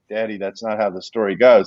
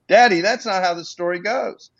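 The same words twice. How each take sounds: First: It is said calmly, without emotion. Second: It is said with strong emotion.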